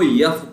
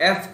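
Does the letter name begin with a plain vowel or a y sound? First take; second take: y sound; plain vowel. First: It begins with a y sound. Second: It begins with a plain vowel sound. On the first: The speaker calls it wrong. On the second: The speaker calls it right.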